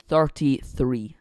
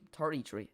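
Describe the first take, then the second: First: Slow, louder attempt at an Irish accent. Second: Said in the usual way. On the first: Shown as a demonstration. Streamer tries a playful Irish accent for viewers, slow and louder. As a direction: drag it out in a hammed-up Irish accent. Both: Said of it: "There'd be my Irish accent".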